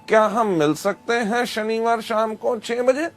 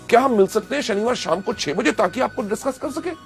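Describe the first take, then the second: First: It is said flatly without excitement. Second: It is said with excitement and energy.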